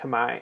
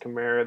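First: It is said closer to the native pronunciation. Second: It is said the way English speakers say it. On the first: The speaker calls it right. "But it is actually pronounced Khmer" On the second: The speaker calls it wrong. "That is how English speakers pronounce it"

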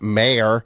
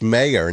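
First: It sounds like 'mare', a female horse. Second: It does not sound like 'mare'. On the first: The speaker calls it wrong. "not mayor. ... Are you calling her a horse" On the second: The speaker calls it right. "it's mayor"

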